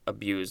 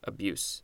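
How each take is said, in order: First: The word ends with a z sound. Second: The word ends with an s sound. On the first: It is the verb. The speaker calls it right. "this second one has a Z" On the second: It is the noun. The speaker calls it wrong. "the first one has an S at the end"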